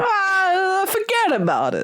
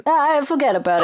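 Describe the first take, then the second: First: High, drawn-out New York mobster "Ah, forget about it"; mobster accent. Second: Quick, higher New York wiseguy echo of "Ah, forget about it"; mobster accent. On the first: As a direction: toss it off like a wiseguy from New York. Mobster catchphrase impression. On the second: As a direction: throw it back fast like a mobster. Echoing mobster catchphrase. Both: Retold or imitated.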